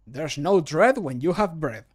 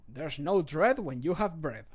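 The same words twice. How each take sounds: First: Louder, punchy character read; character voice line. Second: Said in the usual way. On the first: Acted. Streamer records a cheerful bread line, bold character read. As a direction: sell the bread rhyme boldly. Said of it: "recording voice line takes". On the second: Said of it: "I don't like how I said bread".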